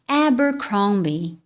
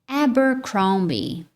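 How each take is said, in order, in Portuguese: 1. Ela é dita com sotaque nativo do inglês. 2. Ela é dita com sotaque nativo do inglês.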